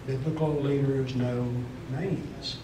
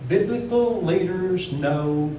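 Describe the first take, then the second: First: "Biblical leaders know" dropped lower and softer, almost to itself. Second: "Biblical leaders know" said slowly, leaning on "Biblical"; slow emphatic. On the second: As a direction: stretch out "Biblical" with weight. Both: Shown as a demonstration. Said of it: "biblical leaders know personal stories".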